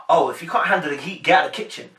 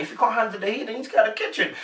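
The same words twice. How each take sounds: First: Level, matter-of-fact put-down; plain serious brush-off; haughty dismissal. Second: Higher-pitched playful tease; light, bantering challenge; joking banter. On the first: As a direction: say it straight, as if you mean it. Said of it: "she didn't say it in a way of". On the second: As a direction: lift it up lightly, as teasing banter. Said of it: "she was joking and bantering". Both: Retold or imitated.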